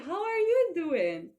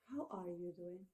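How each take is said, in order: First: It sounds bright and cheerful. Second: It sounds soft and sympathetic. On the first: The speaker is glad to see someone after a long time. "when you see a person after a long time" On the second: The speaker feels for someone who has suffered a loss. "when we sympathy with a person who has had such loss"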